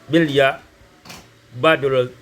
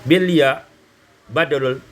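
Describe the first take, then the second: The two takes are said the same way.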